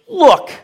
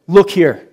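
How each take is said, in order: First: Sharp high bark of Look; snapping Look. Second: Louder, punched Look here; defiant retort. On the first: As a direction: throw Look at him with contempt. Son snapping at father. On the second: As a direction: hit "Look" like a challenge. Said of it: "and goes". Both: Retold or imitated.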